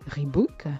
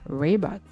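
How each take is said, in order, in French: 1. Il est prononcé avec une prononciation française. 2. Il est prononcé avec un r américain. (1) "vous avez pris l'habitude de le prononcer Reebok" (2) "si vous savez rouler les airs à l'américaine"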